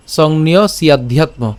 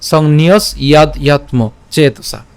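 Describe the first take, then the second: First: "সংন্য সিয়াধ্যাত্ম" with s linked onto ya; joined pronunciation. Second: "সংন্যস ইয়াদ ইয়াত্ম চেতসা" word by word; split pronunciation. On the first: Teacher shows "সংন্য সিয়াধ্যাত্ম" said together, linked. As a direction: join "সিয়াধ্যাত্ম" into one word. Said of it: "একসাথে উচ্চারণ করলে". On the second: Teacher shows "সংন্যস ইয়াদ ইয়াত্ম" said separately, distinct parts. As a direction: break after "সংন্যস" and "ইয়াদ". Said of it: "আর আলাদা উচ্চারণ করলে". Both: Shown as a demonstration.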